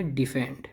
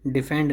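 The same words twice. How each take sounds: First: डिफेंड with a long "dee" opening; correct pronunciation. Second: डिफेंड with a short "dih" opening; wrong pronunciation. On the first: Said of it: "ये है डिफेंड". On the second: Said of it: "डिफेंड नहीं है". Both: Shown as a demonstration.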